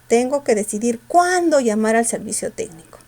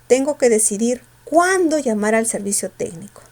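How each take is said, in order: No difference in how they are said.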